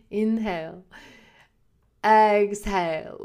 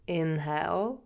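First: Drawn-out "Inhale. Exhale." like a calm instructor, slow exhale; a second, slower try at the teacher's cue; yoga teacher voice. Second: Soft, airy imitation of the yoga teacher saying "Inhale". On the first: Retold or imitated. Retrying the yoga teacher's breathing cue, lightly imitated. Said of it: "I can't even say it like she says it". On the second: Imitating her yoga teacher's soothing cue, lightly. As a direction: breathe out "Inhale" like a gentle instructor. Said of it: "the sound of her voice when she said".

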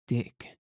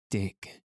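First: Higher-pitched cry of DICK; mild narrated exclamation on DICK; exclaimed. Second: Understated mocking echo of DICK; mimicking. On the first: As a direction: call out DICK in raised pitch, without shouting. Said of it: "cried Joanna". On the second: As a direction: mildly mimic her cry of DICK. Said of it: "mimicked Alicia". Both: A narrator's reading.

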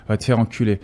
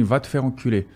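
First: "Va te faire enculer" with a touch more force; with intonation. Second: Said in the usual way. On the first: Shown as a demonstration. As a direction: give the insult some weight, mildly. ("Va te faire enculer" com um pouco de entonação) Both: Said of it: "posso falar com entonação também".

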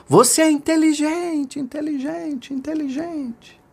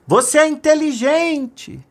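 First: Acted mountain echo, high and fading. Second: High, slow drawn-out shout; acted long, high holler; calling out. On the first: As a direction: echo back, each repeat dying away. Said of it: "a montanha devolveu". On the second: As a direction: call the praise out to the mountains. Father calls out into mountains. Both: A narrator's reading.

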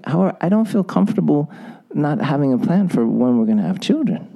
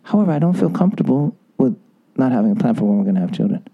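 First: "However" set off, then gentle calm delivery; calm, feeling intonation for a hard request; soft intonation demo. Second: "However" lingered on, then a fast, low trailing finish; gentle, lowered intonation for a hard request; soft intonation demo. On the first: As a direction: say "However, I don't feel comfortable" softly, giving him the problem. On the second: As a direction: let "However" hang, then slide quickly through the rest. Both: Shown as a demonstration. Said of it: "Please listen to the intonation".

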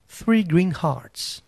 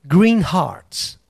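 First: "three" stressed, "greenhearts" slow and clear; spelled out slowly. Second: Said in the usual way. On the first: Shown as a demonstration. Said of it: "três, numeral". ("three greenhearts" bem devagar e destacado)

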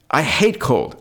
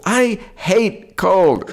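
First: Said in the usual way. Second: I hate cold stretched very slow, pitched much higher; drawn-out emphatic hate. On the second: Real, not acted. Friend groans about hating cold, slowly and high. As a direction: drag out "hate" high and long in disgust.

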